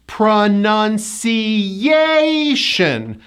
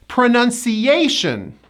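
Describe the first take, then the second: First: "Pronunciation" very slow, lifting on YAY; fourth-syllable stress. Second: "Pronunciation" connected, higher YAY peak; fourth-syllable stress. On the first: Teacher shows the hidden Y, slow "Pronunciation" stressed on YAY. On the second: Teacher puts the word together, connected "Pronunciation" stressed on YAY. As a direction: hit YAY in "Pronunciation", then fall. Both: Shown as a demonstration. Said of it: "fourth syllable is stressed".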